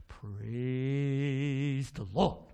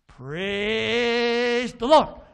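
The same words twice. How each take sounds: First: Very slow, stretched-out low bird call; talking bird. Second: Very long, loud, rising squawk; talking bird. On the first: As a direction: draw it out long, starting low. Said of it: "give me a good one". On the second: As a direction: stretch it out and blare it like a bird. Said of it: "this bird's great". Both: Acted.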